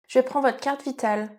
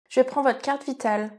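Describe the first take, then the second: The two takes are said the same way.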